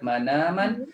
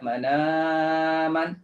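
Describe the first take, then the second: First: The long vowel is held for two counts. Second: The long vowel is held for four counts. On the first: "dua harakat" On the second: "empat harakat"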